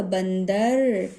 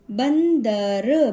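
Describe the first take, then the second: First: Said in the usual way. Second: बंदर slow and louder, split as ban, da, ra; sounding out. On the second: Shown as a demonstration. Teacher demonstrating the nasal sign, slow split syllables. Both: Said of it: "थोड़ा सा pause देकर".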